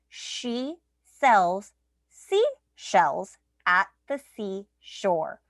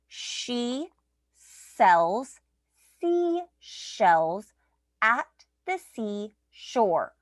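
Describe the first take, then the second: First: The sentence is said at a faster pace. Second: The sentence is said at a slower pace.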